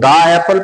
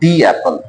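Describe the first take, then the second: First: The word 'the' is said as 'thuh'. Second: The word 'the' is said as 'thee'. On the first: The speaker calls it wrong. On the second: The speaker calls it right.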